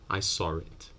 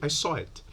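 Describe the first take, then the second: First: An R sound links 'saw' and 'it'. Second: No R sound links 'saw' and 'it'. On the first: "in some non-rhotic dialects... they might say" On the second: "In rhotic varieties, people just say"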